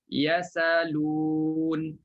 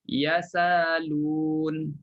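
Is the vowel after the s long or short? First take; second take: long; long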